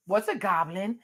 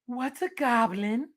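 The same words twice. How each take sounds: First: Said in the usual way. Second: Slow, worried question in a put-on voice; scared mom. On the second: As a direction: ask it with wide crazy eyes. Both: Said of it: "goes to Dad and be like".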